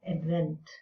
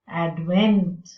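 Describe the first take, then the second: First: The stress is on the first syllable. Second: The stress is on the second syllable. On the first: It is used as a noun. "So nouns and verbs" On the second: It is used as a verb. "So nouns and verbs"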